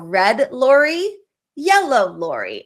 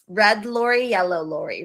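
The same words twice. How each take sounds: First: The phrase is said slowly. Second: The phrase is said quickly. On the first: "you want to practice them slowly" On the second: "as fast as I just did"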